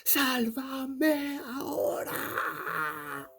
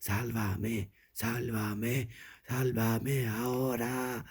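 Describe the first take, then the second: First: High, long, drawn-out wailing scream; ghost girl yelling. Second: Lightly voiced, insistent ghostly refrain; ghost girl repeating. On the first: Storyteller as ghost girl demanding rescue, yelling out. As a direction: shriek it slowly as a ghost child. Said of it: "And she yelled out". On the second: Storyteller as ghost girl in tunnel, lightly chanted plea. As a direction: repeat it steadily, a hint of eerie chant. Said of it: "just kept saying". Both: A narrator's reading.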